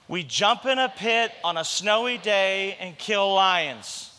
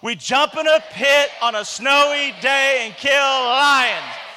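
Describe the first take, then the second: First: It is said quietly and weakly. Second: It is said louder, with full energy.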